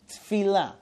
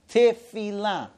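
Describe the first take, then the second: First: The vowel after t is dropped. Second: The vowel after t is pronounced. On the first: It means unimportant things. The speaker calls it wrong. "not Tfila" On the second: It means prayer. The speaker calls it right. "it's Shomea Tefila"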